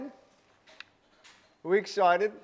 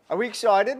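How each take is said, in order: First: Very slow, stretched-out teasing repeat; drawn-out hype. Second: Higher, louder hype call to chat; hype question. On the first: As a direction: drag it out to tease the crowd. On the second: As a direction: pump up the audience. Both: Acted. Streamer hyping up live chat.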